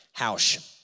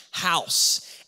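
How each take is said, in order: First: "House." slurred with a sh ending, like haush; tripped-up pronunciation. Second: "House." redone with a clean, crisp s ending; corrected pronunciation. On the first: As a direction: botch "House." into haush, a quick slip. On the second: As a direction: fix "House." and land the s clearly. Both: Shown as a demonstration. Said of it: "Don't know how to speak English".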